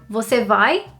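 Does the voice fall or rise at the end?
rise. The pitch rises at the end like a question. It asks whether the person is going. "if you were to ask a question, are you going?"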